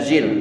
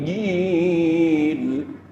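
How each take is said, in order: First: The syllable starts with a z sound. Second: The syllable starts with a j sound. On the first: The speaker calls it wrong. "bukan zil" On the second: The speaker calls it right. "jim di dalam"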